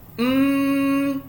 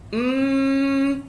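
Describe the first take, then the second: First: The nasal hum is strong and long. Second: The same.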